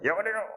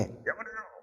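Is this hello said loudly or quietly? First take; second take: loudly; quietly. First: It is said loudly. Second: It is said more quietly.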